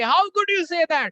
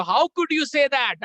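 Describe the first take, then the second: First: Louder, higher, slow mock yell; hammed-up louder retort; mock shout. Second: High, slow mock yell; hammed-up angry retort; mock shout. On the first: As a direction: shout it back harder. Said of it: "आप भी बोलोगे". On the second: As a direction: shout it back. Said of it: "वो भी चिल्ला रहा है".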